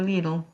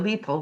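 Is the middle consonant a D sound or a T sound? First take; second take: D sound; T sound. First: The middle consonant is a soft D sound. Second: The middle consonant is a clear T sound. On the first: "but here we can go Lidl. You know, they can make the D sound" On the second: "in the British we can say the little"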